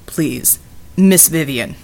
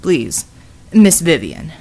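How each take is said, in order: First: Low, patient big man; calm repeated request, low; deep polite voice. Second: Low, formal big man; courteous low plea; deep polite voice. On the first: Bulwark repeats the plea. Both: Acted.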